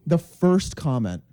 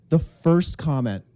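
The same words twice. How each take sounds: The two takes are said the same way.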